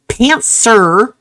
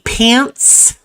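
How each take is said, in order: First: It is said with no T sound. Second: It is said with a T sound.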